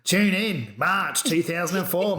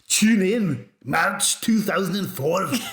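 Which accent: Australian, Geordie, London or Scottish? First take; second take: Australian; Scottish. First: It is said in an Australian accent. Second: It is said in a Scottish accent.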